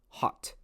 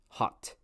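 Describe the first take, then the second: The two takes are said the same way.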